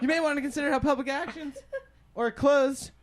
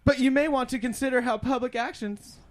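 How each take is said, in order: First: Reading while high; stoner. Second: Stumbling stoned read; reading while high; stoner. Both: Real, not acted. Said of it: "I'm really high right now".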